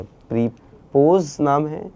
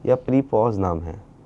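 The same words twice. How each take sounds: First: "प्रीपोज" with a long closed "o", like "pose"; long "o" pronunciation. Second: "प्रीपॉज" with an open "aw", like "pause"; open "aw" pronunciation. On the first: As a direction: say the end of "प्रीपोज" as "poze", questioningly. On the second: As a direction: say the end of "प्रीपॉज" as "pawz", questioningly. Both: Shown as a demonstration. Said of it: "उनका नाम क्या है".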